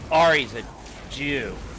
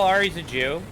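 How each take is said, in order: First: It is said with a heavy, sneering tone. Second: It is said in a plain, neutral tone. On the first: It is meant as an insult. The speaker calls it wrong. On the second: It simply states a fact. The speaker calls it right.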